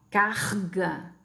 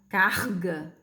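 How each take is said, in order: First: The R scrapes at the back of the throat. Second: The same.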